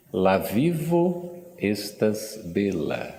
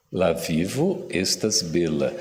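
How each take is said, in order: First: Slow, careful "La vivo estas bela", stress on "vivo"; Esperanto phrase said slowly. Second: "La vivo estas bela" again, a bit quicker, stress falling on "vivo"; Esperanto phrase repeated. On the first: Teacher demonstrating Esperanto to the audience, slow and careful. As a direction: spell out each word of "La vivo estas bela" for the class. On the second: Teacher repeating the phrase for the audience, clear and steady. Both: Shown as a demonstration. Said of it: "Alguém arrisca?".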